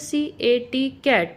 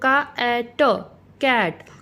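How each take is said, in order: First: Each letter is said by its alphabet name. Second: Each letter is said by its phonic sound. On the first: The speaker calls it wrong. "तो हम इसको ऐसे नहीं पढ़ेंगे" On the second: The speaker calls it right. "हम पढ़ाएंगे बच्चों को"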